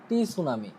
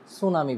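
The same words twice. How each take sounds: First: টি সুনামি with the silent t sounded as the letter টি; mispronounced টি সুনামি with a spoken টি; wrong spelled-out t. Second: সুনামি with a silent t, no টি before it; correct pronunciation. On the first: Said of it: "তাহলে আমার pronunciation হয় নাই". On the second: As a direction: say সুনামি cleanly, leaving out the t. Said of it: "আমাকে এটা pronounce করতে হবে". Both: Shown as a demonstration.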